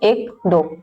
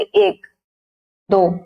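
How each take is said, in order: First: The counting is said at a fast pace. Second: The counting is said at a slow pace. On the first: "इसमें बोलेंगे" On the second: "विलंबित में बोले"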